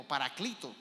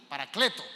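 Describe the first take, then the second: First: "Paraclito" with an i in the stressed syllable; I pronunciation. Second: "Paracleto" with an e in the stressed syllable; E pronunciation. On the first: Preacher gives the Greek title's other reading, "Paraclito" with I. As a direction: say "Paraclito" with ee, not eh. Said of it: "La E y la I". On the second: Preacher gives his own reading of the title, "Paracleto" with E. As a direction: say "Paracleto" with eh, not ee. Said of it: "yo la pronuncio como E". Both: Shown as a demonstration.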